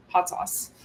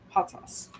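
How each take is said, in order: First: Whispered Hot sauce; whispered, teasing Hot sauce; hushed announcement. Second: Even softer whispered Hot sauce; fading whispered Hot sauce; softer hush. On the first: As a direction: tease the topic in a hush. Announcing rant topic. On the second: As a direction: let the words fade into breath. Announcing rant topic repeated. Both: Real, not acted.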